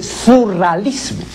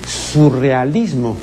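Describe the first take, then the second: First: "surrealismo" said without its e, as "surralismo"; misprinted word. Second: "surrealismo" with the e sounded, "su-rre-a-LIS-mo"; correct form. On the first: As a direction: drop the e: "su-rra-LIS-mo" for "surrealismo", slowly. ("surrealismo" mal dicho, sin la e: "surralismo") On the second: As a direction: give every vowel of "surrealismo", e and a apart. ("surrealismo" bien dicho, con la e) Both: Shown as a demonstration. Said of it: "Debió decir surrealismo".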